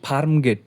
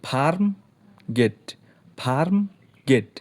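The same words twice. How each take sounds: First: Said in the usual way. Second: ফার্ম and গেট said as separate beats; ফার্ম গেট split into two syllables. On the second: Shown as a demonstration. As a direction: pause between ফার্ম and গেট. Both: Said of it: "দুইটা অক্ষর আছে".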